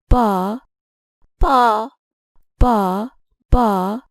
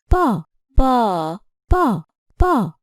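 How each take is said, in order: First: The second syllable is said on higher pitch. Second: The second syllable is held longer than others. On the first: "I have used a higher pitch for the second ba" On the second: "I have stressed the second syllable with length"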